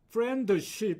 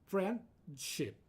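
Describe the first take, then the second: First: It is said with three syllables. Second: It is said with two syllables. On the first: The speaker calls it wrong. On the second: The speaker calls it right.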